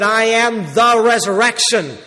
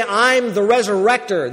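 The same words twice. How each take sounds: First: Slow, weighty stress on "the" in "I am the resurrection". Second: Said in the usual way. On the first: Shown as a demonstration. Preacher correcting the wording, stressing "the". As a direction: lean hard on "the", drawn out. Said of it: "He said". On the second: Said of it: "He didn't just merely say".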